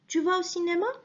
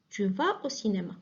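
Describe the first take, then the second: First: The voice rises at the end, a question. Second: The voice falls at the end, a statement.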